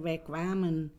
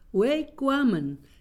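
First: It is said with an Indo accent. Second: It is said with a Surinamese accent. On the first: "Dan in Indo zeggen wij kwamen" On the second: "Maar die wij, dat is echt Surinaams"

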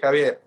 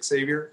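First: The name is pronounced the Spanish way. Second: The name is pronounced the American English way. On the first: "But in Spanish, we say Javier" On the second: "in the U.S., my name will be Xavier"

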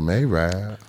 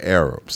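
First: The word is said in a slangy, altered form. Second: The word is said in its standard form. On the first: The speaker calls it wrong. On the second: The speaker calls it right.

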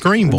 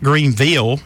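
First: It is said the local way. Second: It is said the outsider way. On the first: The speaker is from the area. The speaker calls it right. "It's Greenville" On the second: The speaker is not from the area. The speaker calls it wrong. "Not Greenville"

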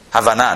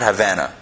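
First: It is pronounced as the Hebrew word. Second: It is pronounced like the city name. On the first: It means understanding. The speaker calls it right. "what they call in Hebrew, Havana" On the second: It names a place. The speaker calls it wrong. "not Havana. That's a different place"

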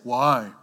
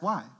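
First: It is said in a slightly deeper voice. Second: It is said in a higher, childlike voice. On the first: A teenager is asking. "Just a little bit deeper voice" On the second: A young child is asking. "when they were younger"

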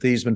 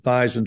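First: The name does not rhyme with Heisman. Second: The name rhymes with Heisman. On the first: This is the family's original pronunciation. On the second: This pronunciation was made up for a trophy campaign.

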